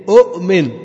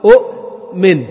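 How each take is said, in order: First: Said in the usual way. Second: أؤمن stretched slowly, both hamzas clearly separated; original double hamza. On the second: Shown as a demonstration. Teacher slowly shows students the original أؤمن. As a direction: drag out أؤمن to show the two hamzas. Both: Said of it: "أصلها".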